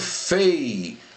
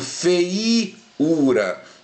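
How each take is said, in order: First: The E of 'ei' is the stronger vowel. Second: The I of 'ei' is the stronger vowel. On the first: The speaker calls it right. "a pronúncia mais forte aqui, ó, do ditongo é a letra E" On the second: The speaker calls it wrong. "eu não pronuncio feiura"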